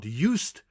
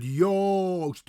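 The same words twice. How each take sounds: First: Said in the usual way. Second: "Joost" with a long closed O, YOHST; Dutch pronunciation. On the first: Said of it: "Not Joost". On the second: Shown as a demonstration. Teacher modelling the correct name, clear. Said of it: "but Joost".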